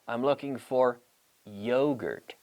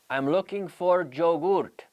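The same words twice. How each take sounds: First: Yogurt begins with a y sound. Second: Yogurt begins with a j sound. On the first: The speaker calls it right. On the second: The speaker calls it wrong.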